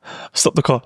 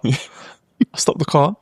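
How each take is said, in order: First: Said in the usual way. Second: "I stopped the car" drawn out very slowly with a rising end; slow, deliberate retelling. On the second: Shown as a demonstration. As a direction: stretch out "I stopped the car" for dramatic weight.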